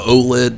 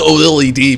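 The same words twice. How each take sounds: First: It is said as a single blended word. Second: The letters are spelled out one by one. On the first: It is easier to say. "easy for them to say without enunciation" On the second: It names what the screen technology actually is. "I'm calling it the OLED because it's, that's what it is"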